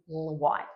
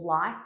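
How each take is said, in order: First: It begins with rounded lips, a W sound. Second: It begins with a clear L sound.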